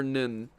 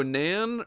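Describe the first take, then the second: First: Nin with a short "i" vowel. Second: Nan with a full, open "a" vowel. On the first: Weighing two pronunciations of Conan, Nin with short vowel. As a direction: say Nin to rhyme with "pin". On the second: Weighing two pronunciations of Conan, Nan with open vowel. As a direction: say Nan to rhyme with "man". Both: Shown as a demonstration. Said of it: "I've heard it both ways".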